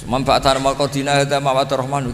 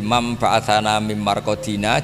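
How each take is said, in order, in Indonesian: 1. Seluruh ayat berjalan terus tanpa jeda sama sekali. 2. Ada jeda setelah bagian pertanyaan.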